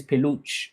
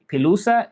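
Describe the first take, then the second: First: "peluche" as peh-loosh; French peluche, ending in a sh sound; French pronunciation. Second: "pelusa" as peh-loo-sah, pitched up; Spanish pelusa with s and final a; Spanish pronunciation. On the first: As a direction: say peluche with the final e silent. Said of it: "And then in French". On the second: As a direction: say pelusa higher, ending on "sah". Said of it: "So in Spanish". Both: Shown as a demonstration.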